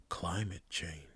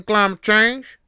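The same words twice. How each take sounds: First: Hushed, secretive whisper. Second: Loud, high Southern holler; Southern accent. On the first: Pretend. Podcaster saying a forbidden term so nobody stops them, whispered. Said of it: "Should I whisper it?". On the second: Acted. Hillbilly scoffing at climate change, shouted Southern accent. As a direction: yell it in a mock hillbilly drawl. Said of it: "I'm still gonna go with it".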